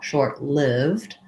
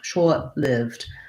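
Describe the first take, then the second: First: The R in short is clearly pronounced. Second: Short has an aw vowel without an R. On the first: "we say an R sound in American English" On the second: "British English, they're going to do it more like shaw"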